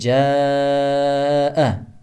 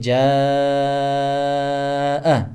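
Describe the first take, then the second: First: The vowel is held for four counts. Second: The vowel is held for five counts. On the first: "төрт аракет дегени" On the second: "беш аракет дегени"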